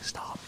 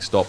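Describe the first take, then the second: First: The word is said in a whisper. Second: The word is said in a full voice. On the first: He is only pretending to tell them to stop. "He's whispering it" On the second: He seems to be firmly ordering them to stop. "looks like he's actually saying stop"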